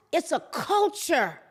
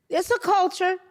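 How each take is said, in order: First: Said in the usual way. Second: "It's a culture." repeated higher, pressing on it; emphatic repeat. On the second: Shown as a demonstration. Commentator to viewers, insisting on his point, emphatic repeat. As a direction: say "It's a culture." again, hitting it harder.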